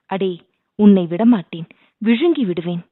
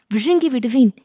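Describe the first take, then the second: First: Lightly put-on ghost threat from the throat; deep throat voice. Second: Shouted threat. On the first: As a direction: play a ghost growling a threat, a touch louder. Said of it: "அடித்தொண்டை குரலில்". (அடித்தொண்டையில் பேய்க் குரல்) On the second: Pretend. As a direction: yell it to scare him. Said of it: "என்று கத்தியவுடனே". (உரக்க கத்திய மிரட்டல்)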